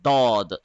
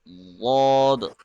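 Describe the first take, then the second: First: The first consonant is a plain, light d. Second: The first consonant is heavy, from the tongue's side. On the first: The speaker calls it wrong. "that is wrong" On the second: The speaker calls it right. "It should be غاض like this"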